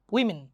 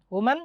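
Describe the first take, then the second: First: "উইমেন" with "wi" at the start, falling at the end; plural women. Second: "ওমেন" with rounded "wo" and open "man"; singular woman. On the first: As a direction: say "উইমেন" as "WIM-in". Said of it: "এটার উচ্চারণ হয় মিন". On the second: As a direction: say "ওমেন" as "WU-man", lifting at the end. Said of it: "আর যখন এই থাকে". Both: Shown as a demonstration.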